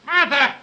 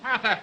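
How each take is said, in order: First: Louder, higher impatient summons; calling out. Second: Said in the usual way. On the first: Acted. Writer summons his servant a second time, impatient shout. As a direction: call sharply for the servant.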